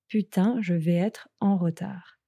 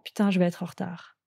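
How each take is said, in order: First: It is said at normal speed. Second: It is said fast.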